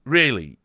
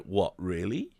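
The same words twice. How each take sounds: First: Louder, falling really; mock surprise. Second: Soft, rising what really; quietly unsure, asking back; mock disbelief. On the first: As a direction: punch it out in disbelief. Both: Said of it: "And I was like".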